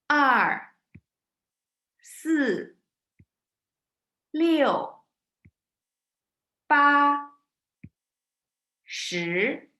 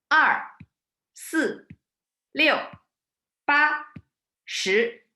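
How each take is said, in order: First: The numbers are counted at a slower pace. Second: The numbers are counted at a faster pace.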